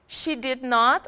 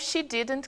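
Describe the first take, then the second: First: Both words are said fully and separately. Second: The two words are merged into one syllable pair. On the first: The speaker is stressing the point or speaking formally. "se for pronunciado assim, é como acontece com o do not e o does not. É enfático" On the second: The speaker is talking casually in everyday speech. "porém falados numa comunicação informal, cotidiana, fluida"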